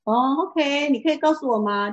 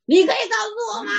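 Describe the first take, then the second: First: It is asked in a calm, gentle tone. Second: It is asked in a fierce, harsh tone.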